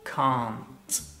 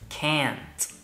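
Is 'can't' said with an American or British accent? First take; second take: British; American. First: It is said with a British accent. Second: It is said with an American accent. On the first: "In the UK" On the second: "In the United States"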